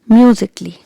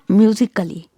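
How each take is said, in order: First: No extra vowel is sounded before the ending. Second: An extra vowel is sounded before the ending. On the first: The speaker calls it right. "Here also letter A is silent. So pronounce it like musically" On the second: The speaker calls it wrong. "It's not musically"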